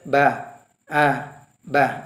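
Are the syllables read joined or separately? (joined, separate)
separate. The syllables are read separately with breaks. "Boleh dibaca ba, a, ba"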